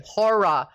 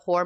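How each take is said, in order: First: HORROR as Australian "HAW-ruh"; horror in two syllables. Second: HORROR run together like "hore"; horror as one syllable. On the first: Shown as a demonstration. Showing how she says it in Australia, horror in two syllables. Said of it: "Yeah, I say horror". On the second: Retold or imitated. Retelling a guest's love of horror movies, horror as one syllable. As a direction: swallow the second syllable of HORROR. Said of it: "put a double syllable in that word".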